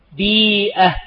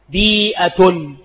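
First: بيئة with a long ii, ending in -ah; pausal ending. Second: بيئة slowly as bii-'a-tun; full tanween ending. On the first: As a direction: say بيئة as bii-'ah, stopping on it. Example word given in two forms. (نطق «بيئة» بالوقف على الهاء) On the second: Example word repeated with full ending. (نطق «بيئة» ببطء مع التنوين) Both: Shown as a demonstration.

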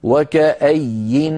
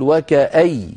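First: "وكأي" drawn out very slowly, ending on a held nun; pause on nun. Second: "وكأي" ending on a doubled ya, no nun; pause with doubled ya. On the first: Teacher shows the pause form: very slow "وكأي" held on its nun. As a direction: stop on "وكأي" with a long clear nun. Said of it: "فإذا نقف عليها". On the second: Teacher shows the everyday-Arabic pause: "وكأي" ending in a doubled ya. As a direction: say "وكأي" closing on a stressed ya. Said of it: "إذا وقفت عليه في اللغة خارج المصحف تقول". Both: Shown as a demonstration.

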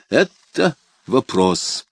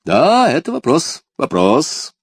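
First: Slow, evasive drawl; hesitant. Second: High, loud amused exclamation; exclaiming with a smile. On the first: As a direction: stall for time, very slowly. Cunning courtier evades answer. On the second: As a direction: cry it out delighted, smiling. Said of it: "воскликнул, улыбаясь, король". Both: A narrator's reading.

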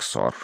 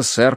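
First: "сор" with an o in place of э; accented pronunciation. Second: Said in the usual way. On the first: A narrator's reading. Narrator quoting maid's accented "сор" for sir, mispronounced. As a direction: say "сор" low and soft, round o. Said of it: "прозвучал как". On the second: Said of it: "Из-за акцента".

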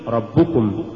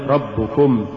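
First: ربكم as one unbroken word; correctly joined word. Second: ربكم broken as رب + كم; wrongly split word. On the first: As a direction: keep كم attached inside ربكم. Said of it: "قل". (نطق «ربكم» كلمة واحدة) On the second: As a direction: set كم apart at the end of ربكم. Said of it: "ولا تقل". (فصل «كم» في «ربكم») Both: Shown as a demonstration.

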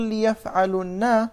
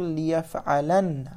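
First: "ليفعلن" said slowly with damma on the lam, ليفعلُن; plural form demo. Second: "ليفعلن" said slowly with open fatha ending, ليفعلَن; singular form demo. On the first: Teacher contrasting plural form for students, slow and deliberate. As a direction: lean on the u in "ليفعلن" as the plural marker. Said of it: "فلما نقول". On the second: Teacher contrasting singular form for students, slow and deliberate. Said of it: "لازم أن نقول". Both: Shown as a demonstration.

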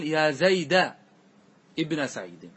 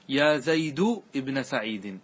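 First: يا زيد ابن سعيد with زيد ending in a, zayda; يا زيد with final fatha, zayda ibna saʿīdi; fatha on Zayd. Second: يا زيد ابن سعيد with زيد ending in u, zaydu; يا زيد with final damma, zaydu ibna saʿīdi; damma on Zayd. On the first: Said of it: "ولك أن تقول". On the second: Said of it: "يجوز لك وجهان". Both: Shown as a demonstration.

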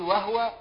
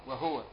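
First: "وهو" read wa-huwa, ha with fatha; "وهو" as wa-HU-wa, ha voiced with a vowel; "وهو" said wa-huwa, a higher, marked take. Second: "وهو" read wa-hwa, ha with sukun; "وهو" clipped to wa-hwa, no vowel on the ha; "وهو" said wa-hwa, a lower, quieter take. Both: Shown as a demonstration. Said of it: "فتح الهاء وسكونها".

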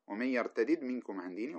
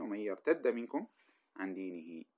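First: يرتدد with both d's kept apart; unmerged reading. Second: يرتد said with one doubled d; merged reading. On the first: Teacher contrasting the unmerged reading with the merged one. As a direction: keep the two d's in يرتدد separate. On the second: Teacher contrasting the merged reading with the unmerged one. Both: Shown as a demonstration. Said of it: "واحدة بالإدغام واحدة بالفك".

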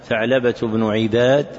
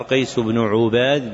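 First: عباد said ʿIbad, with a short i after the ayn; kasra on the ayn. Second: عباد said ʿUbad, with a short u after the ayn; damma on the ayn. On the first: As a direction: pronounce عباد as ʿi-BAAD, single b. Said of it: "بكسر العين". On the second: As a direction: pronounce عباد as ʿu-BAAD, single b. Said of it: "بضم العين". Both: Shown as a demonstration.

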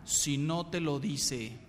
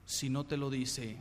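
First: Said in the usual way. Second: Softer, slower repeat of "Si no te lo dice"; quiet slow echo. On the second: Shown as a demonstration. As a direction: let "Si no te lo dice" sink in, softly and slowly.

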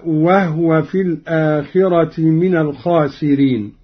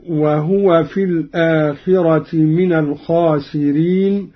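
First: وهو recited as wahwe, the ha silent; Qalun reading. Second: وهو recited fully as wahuwa; Quran recitation. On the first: Teacher demonstrates Qalun's reading, silent ha. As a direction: say وهو as wah-we with no vowel on ha. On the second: Teacher recites the verse first in the usual reading, wahuwa. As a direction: give وهو a voiced hu, wa-hu-wa. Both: Shown as a demonstration. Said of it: "قرأ قالون بإسكان الهاء".

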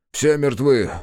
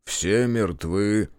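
First: "Все мертвы" pitched higher and louder; "Все мертвы" pushed out high and loud; emphatic repetition. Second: Very slow, heavy statement; drawn-out, stunned report at usual pitch; grim disclosure. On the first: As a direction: insist on "Все мертвы" with raised voice. Repeats the deaths insistently. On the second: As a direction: let each word drag out. First telling of the deaths. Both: A narrator's reading.

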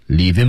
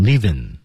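First: Said in the usual way. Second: "living" as leave and him run into one word, no h; linked, dropped H. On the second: Shown as a demonstration. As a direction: say "living" like "leav-im". (“living”：leave him连读，H不发音) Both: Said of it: "连起来读成".

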